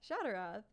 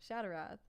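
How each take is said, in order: Both takes have the same delivery.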